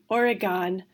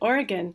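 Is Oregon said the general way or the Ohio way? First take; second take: Ohio; general. First: It is said with a local Ohio pronunciation. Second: It is said with the general American pronunciation. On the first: "I always pronounced the state of Oregon" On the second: "everybody else said Oregon"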